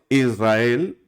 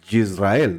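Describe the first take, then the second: First: The word starts with a plain vowel. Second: The word starts with a soft y sound. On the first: "hay gente que dice Israel" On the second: "hay gente que se le nota como el Yisrael"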